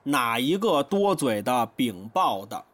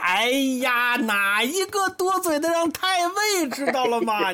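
First: It is said flatly, without feeling. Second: It sounds like mock complaint, secretly pleased.

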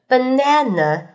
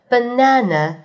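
First: It is said in an American accent. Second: It is said in a British accent. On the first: "美式的banana" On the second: "英式的banana"

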